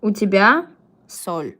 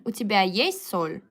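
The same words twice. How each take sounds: First: Flat statement "У тебя соль." with a falling end; wrong version. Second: "у тебя есть соль?" with "есть" stressed as a question; question intonation. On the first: Teacher reads the wrong answer to students, flat falling statement. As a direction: read out the learner's wrong answer flatly. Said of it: "У тебя соль is incorrect". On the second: Teacher shows students the question intonation, stressing есть. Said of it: "with this kind of intonation". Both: Shown as a demonstration.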